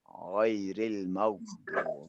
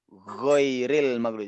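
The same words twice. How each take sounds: First: It begins with a raspy throat gh sound. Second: It begins with a plain hard g sound. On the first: The speaker calls it right. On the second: The speaker calls it wrong. "itu G-nya orang Indonesia tuh"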